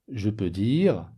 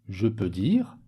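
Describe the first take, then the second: Both takes have the same delivery.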